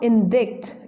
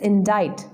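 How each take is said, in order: First: A k sound is heard before the final t. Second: No k sound; it ends like 'dite'. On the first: The speaker calls it wrong. "its pronunciation is not indict" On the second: The speaker calls it right. "it is indite"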